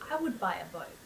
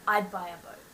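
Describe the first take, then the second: First: The words 'I would' are said in full. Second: The words 'I would' are contracted to 'I'd'.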